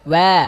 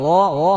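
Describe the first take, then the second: First: The vowel is an open a with open lips. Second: The vowel is a rounded o sound. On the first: The speaker calls it right. "ঠোঁটটা খুলে দিতে হবে মুখ খুলে দিতে হবে" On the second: The speaker calls it wrong. "ও ও হবে না"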